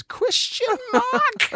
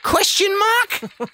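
First: Slow, much higher deadpan query; Jason Bateman question mark. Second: Slow, much higher questioning lilt; Jason Bateman question mark. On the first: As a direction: stretch the question mark out high. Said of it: "He says things and then goes". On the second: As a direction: drag it out as a mock question. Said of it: "Jason Bateman does that". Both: Retold or imitated.

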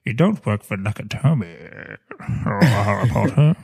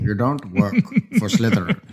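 First: Lightly voiced Rickman villain; Snape voice. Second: Low, mock Snape with a laugh; a hint of Snape. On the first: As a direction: sneer it like Snape. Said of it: "Alan Rickman impersonating". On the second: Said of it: "Snape impersonating".

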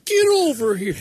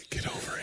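First: High, strained catchphrase cry; hammed-up high video game voice; Scorpion. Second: Soft secret whisper. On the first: Joking over a game character's catchphrase, hammed-up high cry. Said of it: "Just say, "Get over, get over here". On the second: Retold or imitated. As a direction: whisper it to a date. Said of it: "He just whispers it".

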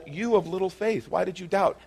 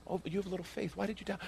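First: Higher-pitched rebuke at normal volume; calling out doubter. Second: Very soft, high, tender chiding; gentle rebuke. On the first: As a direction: put the reproach to him openly. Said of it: "He's called". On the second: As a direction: chide him softly, almost under the breath. Gentler rereading of Jesus' rebuke. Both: Acted.

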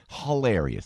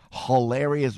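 First: Hilarious in a thick Jersey accent, huh-LAIR-ee-us. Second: Said in the usual way. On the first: Shown as a demonstration. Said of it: "there's my Jersey accent". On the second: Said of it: "not hilarious, hilarious".

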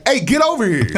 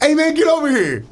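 First: Higher, laughing through a mock summons; half-laughed demand. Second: Much higher, breezy and friendly; bright casual come-over; friendly invite. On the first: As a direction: play it as a teasing call-over. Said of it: "or it could be like". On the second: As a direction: make it a buddy calling you over. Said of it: "it could be like". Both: Shown as a demonstration.

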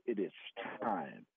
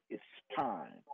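First: Much lower, soft solemn voice; deep hushed divine voice; the audible voice. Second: Low, soft solemn voice; a quiet voice from beyond, lower and softer; hushed, solemn divine voice; the audible voice. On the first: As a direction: drop low and quiet, like a voice from beyond. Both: Retold or imitated. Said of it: "all that voice said".

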